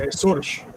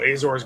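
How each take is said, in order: First: The name is said with Portuguese pronunciation. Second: The name is said with English pronunciation. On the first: "if you're Portuguese, you say Açores" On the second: "so in English"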